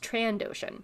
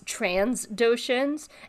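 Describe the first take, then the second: First: No s sound follows the first syllable. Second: An s sound follows the first syllable. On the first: The speaker calls it right. "it's trandotion with no S" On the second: The speaker calls it wrong. "I used to accidentally say transdotions with an S"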